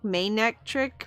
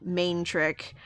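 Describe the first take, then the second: First: The word is said with three syllables. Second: The word is said with two syllables. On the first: "maybe like pronounce it a little more like that" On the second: "without that extra syllable"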